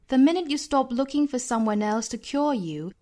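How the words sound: It is spoken with a British accent. "我们再来读一下英音版"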